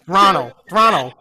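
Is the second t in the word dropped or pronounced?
dropped. The second t is dropped, Canadian style. "you guys kind of say Ranel"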